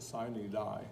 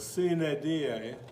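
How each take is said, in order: First: The words are said with English-style sounds. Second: The words are said with classical Latin sounds. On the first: The speaker calls it wrong. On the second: The speaker calls it right.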